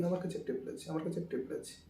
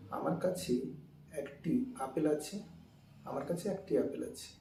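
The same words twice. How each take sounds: First: Fast, run together; "আমার কাছে একটি আপেল আছে" said fast so একটি and apple run together; said quickly. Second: Said in the usual way. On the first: Shown as a demonstration. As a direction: rattle it off so the words blur. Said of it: "আমরা এটা যদি দ্রুত বলি". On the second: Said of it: "আমরা কথা বলি".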